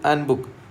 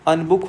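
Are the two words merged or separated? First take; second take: separated; merged. First: The two words are said as separate words. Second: The two words run together into one word. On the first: One book. "जल्दी से पढ़ेगा तो एन बुक कह देगा वो" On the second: Do not book it. "और fast करने पे ये सीधे सीधा डायरेक्ट क्या हो जाएगा, अनबुक हो जाएगा"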